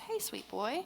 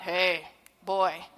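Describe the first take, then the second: First: It is said in a relaxed, warm tone. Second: It is said in a tense, harsh tone.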